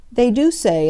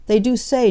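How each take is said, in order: First: "do" stressed, the line lifted and careful; cautious hint. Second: "they do SAY", lifted and careful; cautious repeat. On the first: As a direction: stress on "do", a raised, falling "They DO say". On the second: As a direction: stress on "say", raised then falling on "say". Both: A narrator's reading. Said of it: "observed Bunting cautiously".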